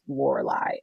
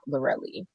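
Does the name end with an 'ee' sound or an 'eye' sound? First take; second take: eye; ee. First: The name ends with an 'eye' sound. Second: The name ends with an 'ee' sound. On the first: The speaker calls it right. "I believe that it is pronounced Lorelei" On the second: The speaker calls it wrong. "and not Lorelli"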